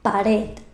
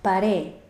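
First: The final d sound is pronounced. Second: The final d is dropped, vowel lengthened.

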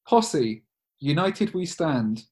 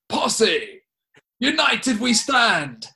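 First: It is said in the speaker's ordinary voice. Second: It is said in an imitated put-on voice.

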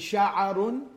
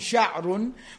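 First: A short 'a' vowel follows the ayn sound. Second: No vowel follows the ayn sound. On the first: "with a fatha on the ayn" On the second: "with a sukun on the ayn"

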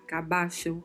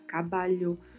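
First: The double L sounds like ch. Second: The double L sounds like Portuguese lh. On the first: "um som de CH" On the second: "um som de LH"

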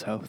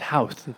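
First: It is said with the Irish local pronunciation. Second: It is said with the American pronunciation. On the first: This is how local people say it. The speaker calls it right. "we hung out with some Ireland friends and they're like, no, it's Hoth" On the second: This is how visitors from America would say it. The speaker calls it wrong. "To us Americans, that's Houth"

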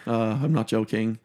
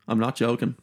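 First: The ending of joking is a full -ing. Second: The ending of joking is clipped to -in. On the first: The speaker calls it right. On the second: The speaker calls it wrong.

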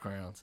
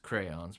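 First: It is said in a Southern Ohio accent. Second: It is said in a general American accent.

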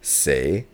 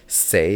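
First: It carries the tone of the word meaning death. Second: It carries the tone of the word meaning four. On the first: It means death. "say is death" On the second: It means four. "say is four"

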